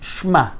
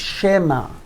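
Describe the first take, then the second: First: The sh and m run together without a vowel. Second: A short e vowel separates sh and m. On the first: The speaker calls it wrong. "if it would be Shva Nach, I would have to say Shma" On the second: The speaker calls it right. "but the word is Shema"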